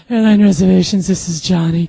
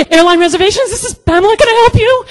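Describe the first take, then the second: First: Smooth. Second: Very high, loud squeak; panicked, squeaky receptionist cover-up; flustered phone greeting. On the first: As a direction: answer the phone with suave composure. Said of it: "he's so freaking smooth". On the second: She covers panic answering phone. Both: Retold or imitated.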